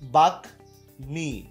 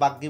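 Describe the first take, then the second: First: The m sound after g is pronounced. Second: The m sound after g is dropped. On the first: The speaker calls it right. "এখানে উচ্চারণ বহাল আছে" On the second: The speaker calls it wrong. "অনেকে বাগ্যি বলে কিন্তু এরকম হবে না"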